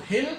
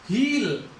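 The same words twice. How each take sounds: First: हिल with a brief lax i; short vowel. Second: हील with a long held ee; long vowel. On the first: Teacher showing the difference in sounds, short vowel. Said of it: "difference कि छोटे ई". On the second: Teacher showing the difference in sounds, long vowel. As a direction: draw out the ee in हील. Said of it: "बड़े ई की". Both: Shown as a demonstration.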